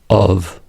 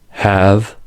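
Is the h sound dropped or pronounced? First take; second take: dropped; pronounced. First: The word begins without any h sound. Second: The word begins with an audible h.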